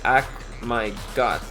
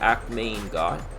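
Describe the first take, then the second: First: The middle word sounds like 'my'. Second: The middle word sounds like 'main'. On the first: "main sounds like my" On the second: "I think Maine. Because chow mein, that's how you say the main in chow mein"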